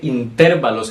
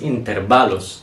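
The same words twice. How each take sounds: First: The stress is on the second syllable. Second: The stress is on the third syllable. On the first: The speaker calls it wrong. "creo que dije intervalos" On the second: The speaker calls it right. "la pronunciación correcta es intervalos"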